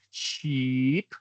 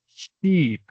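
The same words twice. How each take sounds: First: "sheep" with the EE stretched, rising at the end; slightly overdone teaching demo of "sheep"; long EE, exaggerated. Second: "sheep" with a stretched EE, higher and falling; hammed-up teaching demo of "sheep"; exaggerated long EE. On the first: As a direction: draw out the EE in "sheep" as a model. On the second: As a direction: overdo the EE in "sheep", falling to the end. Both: Shown as a demonstration. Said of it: "Yo estoy exagerando un poquito".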